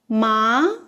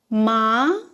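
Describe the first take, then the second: First: The pitch rises from low to high. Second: The same.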